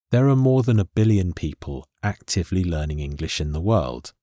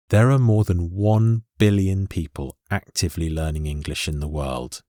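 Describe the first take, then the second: First: Said in the usual way. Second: "one billion" given full weight, unhurried; stress on "one billion". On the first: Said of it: "I don't particularly want to emphasize". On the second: Shown as a demonstration. Teacher showing learners the standard way to say the number, "one billion" emphasized. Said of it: "want to emphasize the word billion".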